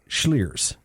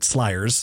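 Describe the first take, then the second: First: The name begins with a 'shl' sound. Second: The name begins with an 'sl' sound. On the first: The speaker calls it right. "that is called Schliers" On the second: The speaker calls it wrong. "I was pronouncing it Slyers because I'm a dumb American"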